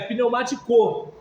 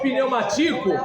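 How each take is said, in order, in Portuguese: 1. A sílaba tônica é a última. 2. A sílaba tônica é a terceira. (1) "Para ser oxítona teria que ser" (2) "se fosse pneumatico, aí seria paroxítona"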